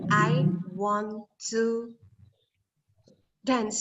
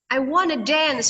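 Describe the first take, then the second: First: Want to is said as two full words. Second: Want to is reduced to wanna. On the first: It is formal speech. "Resminya kan want to" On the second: It is casual, informal speech. "Itu informal"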